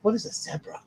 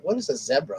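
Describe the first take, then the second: First: "What is a zebra?" with WHAT pitched higher, puzzled; mock bewildered "What is a zebra?", WHAT up high; incredulous mimicking. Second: Said in the usual way. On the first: Retelling his reaction to Prince Harry saying zebra, high and puzzled. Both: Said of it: "I was like".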